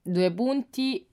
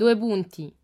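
First: Slowly dictating each word; slow dictation. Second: "Due punti" said louder to correct; firm correction. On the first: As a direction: spell it out slowly for the child. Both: Shown as a demonstration. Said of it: "Tema, punto".

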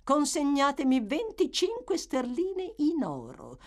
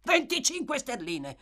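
First: Higher, steady demand without hurry; a calm woman naming her sum; calm matron. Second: Higher, jolted repeat of the sum; startled exclamation. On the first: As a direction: state the price coolly. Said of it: "con la massima calma". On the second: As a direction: react with a start. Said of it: "esclamò Monks trasalendo". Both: A narrator's reading.

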